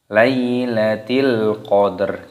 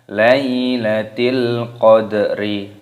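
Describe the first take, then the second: First: The last word ends on a stopped consonant. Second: The last word ends with an added i vowel. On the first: The speaker calls it right. "maka dibaca Lailatil qadr" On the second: The speaker calls it wrong. "Jangan dibaca Lailatil qadri"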